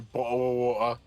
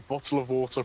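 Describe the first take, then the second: First: The T sounds are dropped. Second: The T sounds are clearly pronounced. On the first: "I don't say bottle of water" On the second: "I say bottle of water properly"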